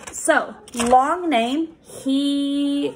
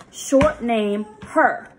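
First: He said high, the long E held out clearly; long E modelled. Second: Her said crisply, the E barely sounded; short E modelled. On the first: Teacher modelling the long E in he for a pupil. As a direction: sing out the long E in he. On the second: Teacher contrasting the short E in her for a pupil. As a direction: clip the vowel in her. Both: Shown as a demonstration.

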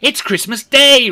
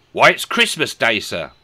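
First: Very high, loud burst of delight; overjoyed exclamation. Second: Higher, louder matter-of-fact reply; lightly voiced boy. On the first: A narrator's reading. Scrooge repeating the news to himself, overjoyed. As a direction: cry it out in amazed joy. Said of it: "repeated Rishi Scrooge to himself". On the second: Boy answering a gentleman at the window, lightly voiced. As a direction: answer up with a touch of puzzlement.

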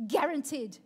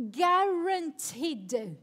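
First: Said in the usual way. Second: Drawn out slowly and weighted; slow emphatic. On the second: Shown as a demonstration. Pastor sealing her promise to the youth group, slow and weighted. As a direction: stretch it to seal the promise.

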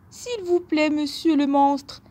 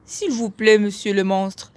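First: Supplier d'une petite voix haute; voix aiguë de chevreau qui implore; petit bouc suppliant. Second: Supplication légère, voix moyenne; deuxième bouc suppliant. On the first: (supplication aiguë du petit bouc) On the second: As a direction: demander poliment en bouc, sans voix aiguë. (bouc qui supplie à voix moyenne) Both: A narrator's reading. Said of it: "supplia le bouc".

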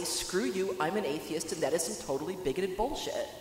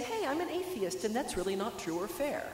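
First: Blunt, matter-of-fact dismissal; flatly blunt. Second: Higher-pitched, gentle objection. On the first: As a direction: say it flatly, with no cushioning at all. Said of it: "when to just flatly say". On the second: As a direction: say it gently, pitched up high to start. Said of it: "when to kind of gently say". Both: Acted.

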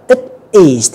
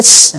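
First: "it is" as two full words; both words of "it is" clearly sounded; full form. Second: "it's" as one syllable; single syllable ending in ts, "it's"; contracted form. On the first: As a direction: say "it is" uncontracted. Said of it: "chúng ta đọc đầy đủ". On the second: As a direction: squeeze "it is" into "it's". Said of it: "các bạn đọc là". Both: Shown as a demonstration.

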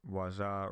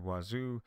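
First: "Waza" ending in an open "ah"; alternative pronunciation. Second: "Wazoo" ending in a long "oo"; alternative pronunciation. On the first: Presenter unsure of the platform's name, "Waza" ending in "ah". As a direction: say "Waza" with a final "zah". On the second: Presenter offering another name reading, "Wazoo" ending in "oo". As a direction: say "Wazoo" with a final "zoo". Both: Shown as a demonstration. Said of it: "Not sure how to pronounce that".

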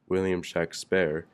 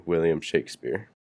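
First: Shakespeare said as SHACK-spair; short flat A in the first half of Shakespeare; spelling pronunciation. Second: Said in the usual way. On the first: Shown as a demonstration. Narrator reading out signature spellings, Shakespeare said SHACK-spair. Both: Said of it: "His six signatures read".

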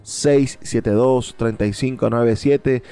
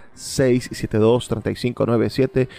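Both takes have the same delivery.

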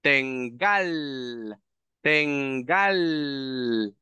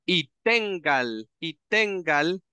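First: "tengal" with stress on the final A, falling; second pronunciation. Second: "tengal" drawn out slowly, stress on the first syllable; slow demo word. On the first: Teacher models the second "tengal" for students. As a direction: end "tengal" stressed on the last syllable. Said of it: "la primera sería siempre con posesivo". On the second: Teacher slowly models "tengal" for the class. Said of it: "puede pronunciar ambas". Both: Shown as a demonstration.

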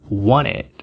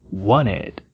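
No difference in how they are said.

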